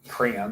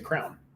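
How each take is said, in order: First: The word is said with two syllables. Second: The word is said as one syllable. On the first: "You don't say crayon" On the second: "you say crown"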